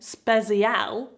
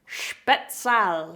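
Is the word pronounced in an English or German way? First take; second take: English; German. First: It is pronounced in an English-sounding way. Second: It is pronounced in a German-sounding way. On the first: The speaker calls it wrong. "as I call them" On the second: The speaker calls it right. "many of you Germans have pointed out that it's Spezial"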